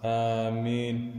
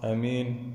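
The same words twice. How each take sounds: First: The first vowel is long. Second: The first vowel is short. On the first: "مثل ياسين" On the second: "بالقصر أيضا مثل يمين"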